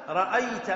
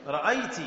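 First: رأيت said ra'ayta, ending in -ta; masculine ending. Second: رأيت said ra'ayti, ending in -ti; feminine ending. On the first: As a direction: end رأيت on an open "a". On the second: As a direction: end رأيت on an "ee" vowel. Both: Shown as a demonstration. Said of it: "أنت".

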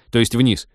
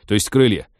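First: Flustered shout. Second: Loud, hasty correction; flustered shout. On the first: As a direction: shout the fix. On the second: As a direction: bark the correction out. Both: A narrator's reading. Flustered captain corrects his order.

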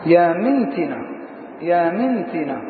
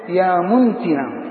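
First: يا منتنة with kasra on the meem, mintina; منتنة بكسر الميم; correct vowel, mi. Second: يا منتنة with damma on the meem, muntina; منتنة بضم الميم; wrong vowel, mu. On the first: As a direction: say منتنة as mintina, as the dictionaries give it. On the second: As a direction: say منتنة as muntina, the copy's misreading. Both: Shown as a demonstration. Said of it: "صواب في كتب اللغة كسر الميم".

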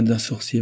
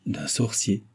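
First: Said in the usual way. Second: Puzzled echo of D'un sorcier, rising at the end; understated disbelief, voice lifting on sorcier; astonished question. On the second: A narrator's reading. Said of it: "dit Philippe étonné".

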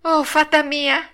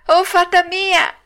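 First: High, drawn-out puppet wail; acted panicked cry. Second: Higher, louder drawn-out wail; panicked shriek. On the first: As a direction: call desperately for rescue. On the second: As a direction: shriek for rescue as a terrified puppet. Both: A narrator's reading. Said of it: "cominciò allora a strillare il burattino".

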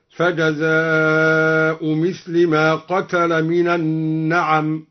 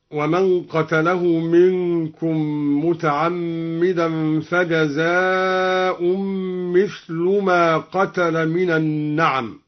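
First: Slow recitation, فجزاء ends in bare u, مثل as "mithli"; no tanween, مثل in kasra. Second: Slow recitation, فجزاء drawn out with nasal -un and مثل ending in u; tanween on فجزاء. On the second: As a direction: recite فجزاء as "fajazaa-un", then "mithlu". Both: Shown as a demonstration. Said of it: "قرأ الدوري بحذف التنوين".

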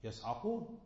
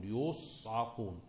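First: يصعقون said "yas'aqun", a after the y; يصعقون as yas-'a-qun; active reading. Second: يصعقون said "yus'aqun", u after the y; يصعقون as yus-'a-qun; passive reading. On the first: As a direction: start يصعقون with a short a, "yas-". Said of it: "المبني المعلوم الفاعل تبقى إيه". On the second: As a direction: start يصعقون with a short u, "yus-". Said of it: "على البناء للمفعول". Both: Shown as a demonstration.

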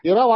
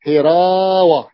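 First: Said in the usual way. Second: "هراوة" slow, with a long stretched a; drawn-out word. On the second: Shown as a demonstration. Teacher showing the fi'ala pattern, drawn out. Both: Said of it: "هراوة على وزن فعالة".

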